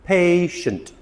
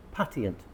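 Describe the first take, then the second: First: "patient" said pay-shunt, with a sh sound; proper "patient", two syllables, pay-shunt; correct pronunciation. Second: "Patient" said pat-ee-ent, the t sounded; wrong "Patient" as pat-ee-ent; wrong pronunciation. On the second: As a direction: mispronounce "Patient" with a hard t and three syllables. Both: Shown as a demonstration. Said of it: "It's a C H sh sound".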